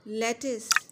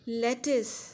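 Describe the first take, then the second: First: The second syllable sounds like 'is'. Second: The same.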